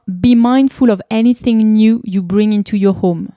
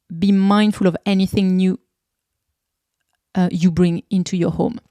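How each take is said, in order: First: Quoting the book in English; English quote. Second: Said in the usual way. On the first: Shown as a demonstration. Reading the book's English motto to listeners, carefully. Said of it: "Et enfin". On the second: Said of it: "Désolée, j'ai un peu bugué là".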